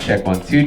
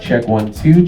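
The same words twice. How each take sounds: First: The voice has strong high-end presence. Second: The voice has very little high end. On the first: "You'll hear a lot more presence in my voice" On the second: "right now you should not be able to hear much high end coming from my voice"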